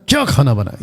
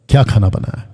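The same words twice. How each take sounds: First: It sounds harsh and scolding. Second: It sounds like a plain, curious question. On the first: The cook is being scolded. "ये है डांटना" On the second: Someone is asking what was cooked. "एक कि पूछ रहा है"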